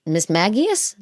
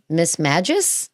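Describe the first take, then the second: First: "Magius" with a hard g, MAG-ee-us; three syllables in "Magius", g as in gap; questioned pronunciation. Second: Two syllables in "Magus", g like a j; alternative pronunciation. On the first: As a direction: try "Magius" as MAG-ee-us, asking. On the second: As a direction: try "Magus" as MAJ-us, asking. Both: Shown as a demonstration. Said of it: "How do you pronounce it?".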